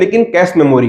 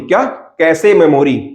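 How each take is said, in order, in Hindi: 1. Cache में एक syllable है, और यह 'sh' से खत्म होता है। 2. Cache में दो syllables हैं, और यह 'say' से खत्म होता है। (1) "तो इसको हिंदी में क्या लिखते हैं" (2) "इसका इंग्लिश में प्रोनाउंसिएशन क्या होता है"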